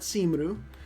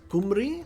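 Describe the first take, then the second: First: The name begins with an s sound. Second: The name begins with a k sound. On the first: The speaker calls it wrong. "I have been pronouncing the name right here incorrectly. It is not Simru" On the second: The speaker calls it right. "It is Kumri. ... the more accurate pronunciation"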